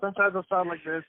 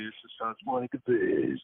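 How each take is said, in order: First: Higher-pitched demo of the announcer voice; announcer voice on an ordinary line; movie guy voice. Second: Slow, drawn-out groggy announcer; slow morning-after trailer voice. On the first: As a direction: show off the trailer voice. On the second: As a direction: sound freshly woken, dragging the words. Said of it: "when I wake up in the morning all groggy". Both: Shown as a demonstration.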